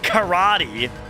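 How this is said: Karate is said with an American pronunciation. Nearly all Americans would understand it. "one hundred percent of Americans know what karate is"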